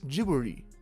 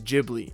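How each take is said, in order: First: It is said as three syllables with a soft R. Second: It is said as two syllables, English-style. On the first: "the R sound isn't quite as harsh, and it's quite softer with a little undertone of the letter L, sort of like Jiburi" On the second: "The pronunciation I use is Ghibli"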